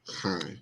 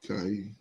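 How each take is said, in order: First: The word begins with a breathy H sound. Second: The word begins with a hard K sound. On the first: The speaker calls it right. "but it's high" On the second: The speaker calls it wrong. "I said Kai"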